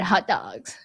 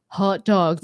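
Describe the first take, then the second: First: It is said in a gushing valley-girl voice. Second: It is said in a laid-back Californian accent. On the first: "or like, oh my god, hot dogs. Like if you're a girl" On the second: "But from California, you'd be like hot dogs, man"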